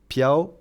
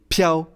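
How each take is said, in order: First: The word is said softly with little energy. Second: The word is said forcefully with much energy. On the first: The speaker calls it wrong. "On ne prononce pas piao" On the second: The speaker calls it right. "il faut dégager pas mal d'énergie"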